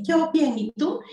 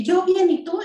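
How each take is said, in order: First: Eco agudo del niño, copia la respuesta; niño repitiendo. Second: Respuesta aguda y fuerte de adulto; adulto respondiendo. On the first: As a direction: repite la frase como eco infantil. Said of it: "Y él dice". (el niño repite en eco, voz aguda) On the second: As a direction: contesta en voz alta y aguda al niño. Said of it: "ecolalia, tú dices una frase". (respuesta aguda y fuerte del adulto) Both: Shown as a demonstration.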